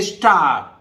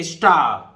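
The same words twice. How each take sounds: First: स्टार with the r clearly sounded at the end; wrong take with r. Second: स्टार ending in a long "आ" with the r silent; non-rhotic r. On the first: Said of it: "नहीं पढ़ेंगे स्टार". (स्टार को अंत में र बोलकर, गलत उच्चारण) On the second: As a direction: say स्टार as "स्टा", the r barely there. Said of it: "हम आर बोलना चाह रहे हैं पर बोल नहीं रहे". (स्टार को "स्टा" की तरह, र लगभग गायब) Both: Shown as a demonstration.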